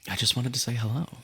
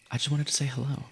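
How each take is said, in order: Both takes have the same delivery.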